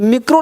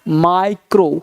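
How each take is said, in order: First: The first vowel sounds like 'ee'. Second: The first vowel sounds like 'eye'. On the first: The speaker calls it wrong. "आई को ई पढ़ते हैं तो मिक्रो हो जाएगा, तो मिक्रो नहीं पढ़ना" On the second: The speaker calls it right. "क्या पढ़ना है, माइक्रो"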